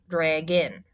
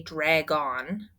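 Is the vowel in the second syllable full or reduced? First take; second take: reduced; full. First: The second syllable has a reduced 'in' vowel. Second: The second syllable has a full 'on' vowel. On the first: The speaker calls it right. "it sounds like drag in" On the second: The speaker calls it wrong. "we don't say drag on"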